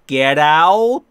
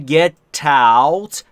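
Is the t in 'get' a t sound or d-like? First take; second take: d-like; t sound. First: The t of get sounds like a soft d. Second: The t of get links straight into out. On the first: "بعضی اینو یه مقدار دیتر میکنن به خصوص در امریکن اکسنت" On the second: "get به تی ختم میشه و با ا در out شروع میشه"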